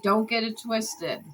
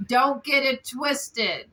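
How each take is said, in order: First: Said in the usual way. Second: "Don't get it twisted" slow, every word leaned on; slow emphatic warning. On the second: Retold or imitated. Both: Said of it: "That's what she keeps saying".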